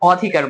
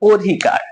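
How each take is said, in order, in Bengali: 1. প্রথম স্বরধ্বনিটি খোলা 'a' ধ্বনি। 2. প্রথম স্বরধ্বনিটি 'o' ধ্বনি। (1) "অধিকার বলবো না" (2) "আমরা কি বলবো? অধিকার। ... ওকারান্ত"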